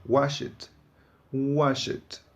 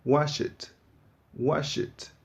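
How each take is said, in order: Both takes have the same delivery.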